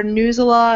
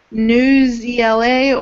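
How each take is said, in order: First: "Newsela" run together, no letters spelled out; pronounced as a word. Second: "News E L A" with the last three letters named one by one; spelled-out acronym. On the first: Presenter offering another way to say it, one word. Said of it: "because it looks like an acronym". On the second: Presenter unsure of the site's name, spelled-out acronym. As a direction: say News, then E L A as separate letters. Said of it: "not really necessarily sure how to pronounce that". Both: Shown as a demonstration.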